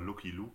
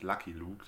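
First: The first vowel is a German 'oo' sound. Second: The first vowel is an English 'uh' sound. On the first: The name is read with German letter sounds. The speaker calls it wrong. "Ein Kindergartenfreund von mir hat immer Lucky Luke gesagt" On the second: The name is said the English way. The speaker calls it right. "das heißt Lucky Luke, das ist Englisch"

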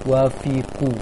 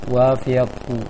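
Both takes have the same delivery.

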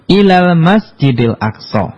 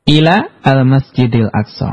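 First: Ila and al- run together as ilal. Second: Ila and al- are said as separate words.

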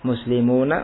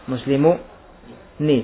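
First: The final nun is said with an 'a' vowel. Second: The final nun is said with an 'i' vowel. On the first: This is the usual form. "faftah fathahlah" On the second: This is a rare form. "sedikit sekali yang mengucapkan nunnya dengan kasrah"

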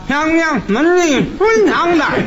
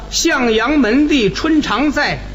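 First: It is recited with no nasal resonance at all. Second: It is spoken in plain conversational speech. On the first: "有的人呢，他这个鼻腔共鸣就没有" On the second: "你看这么说起来，好像共鸣用处不大"

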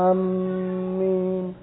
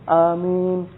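First: The m sound is doubled and held long. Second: The m sound is single and short. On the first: The speaker calls it wrong. "Ada khata" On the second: The speaker calls it right. "dalam mengucapkan amin di sana tidak ada tasydid"

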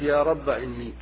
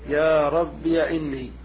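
First: The word ends in a short a vowel. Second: The word ends in 'iya'. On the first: "حذف الألف" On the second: "إثباتها مفتوحة"

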